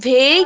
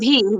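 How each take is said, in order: First: The vowel sounds like 'ay', as in 'vay'. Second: The vowel sounds like 'ee', as in 'vee'. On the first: The speaker calls it wrong. "ভে না" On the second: The speaker calls it right. "তাহলে কি হচ্ছে ভি।"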